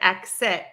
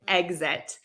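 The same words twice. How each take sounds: First: The x is said as a voiceless ks. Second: The x is said as a voiced gz. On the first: The speaker calls it wrong. "I think I pronounced exit wrong. I said exit" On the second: The speaker calls it right. "it's exit"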